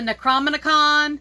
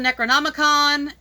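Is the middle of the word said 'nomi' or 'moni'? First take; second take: moni; nomi. First: The middle syllables are said 'mon-i'. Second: The middle syllables are said 'nom-i'. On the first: The speaker calls it wrong. "they were calling it the Necromonicon" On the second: The speaker calls it right. "somebody was talking about the Necronomicon"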